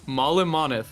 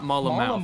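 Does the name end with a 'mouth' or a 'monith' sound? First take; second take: monith; mouth. First: The name ends with a 'monith' sound. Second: The name ends with a 'mouth' sound. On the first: The speaker calls it right. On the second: The speaker calls it wrong. "not Mullimouth"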